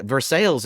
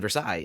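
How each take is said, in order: First: "Versailles" said as ver-SALES; Kentucky pronunciation. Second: "Versailles" said as ver-SIGH; French-style pronunciation. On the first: Defending the Kentucky name, "Versailles" as ver-SALES. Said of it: "how to pronounce Versailles outside of Kentucky". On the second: Arguing over the town's name, "Versailles" as ver-SIGH. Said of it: "it's pronounced Versailles". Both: Shown as a demonstration.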